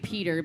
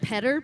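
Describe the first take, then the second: First: The name is said with an American pronunciation. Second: The name is said with a native pronunciation. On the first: The speaker calls it wrong. "that's the American version" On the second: The speaker calls it right. "but it's actually Petter"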